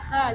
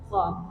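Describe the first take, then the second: First: Said light, with the mouth opened wide. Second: Said heavy, with the lips pushed forward. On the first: The speaker calls it wrong. "jangan kha, jangan dibuka arahnya" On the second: The speaker calls it right. "kho tebal ya bu, dimonyongkan sedikit"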